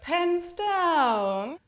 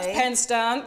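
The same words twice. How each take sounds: First: The pitch moves clearly up and down. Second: The pitch stays flat and level throughout. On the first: The speaker calls it right. "with up and down with your voice" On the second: The speaker calls it wrong. "not pens down"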